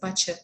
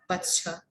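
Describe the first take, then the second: First: The T sound is left out. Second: The T sound is pronounced. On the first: The speaker calls it right. "it's a butcher" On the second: The speaker calls it wrong. "It's not butcher"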